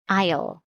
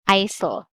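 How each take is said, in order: First: The word is said with no S sound. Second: The word is said with an S sound. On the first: The speaker calls it right. "this is silent S. So we read aisle" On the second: The speaker calls it wrong. "not aisle"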